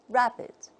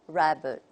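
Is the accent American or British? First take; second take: British; American. First: The second vowel is a short 'ih' sound. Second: The second vowel is a weak 'uh' sound. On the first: "The British model would be" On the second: "the American model, something like"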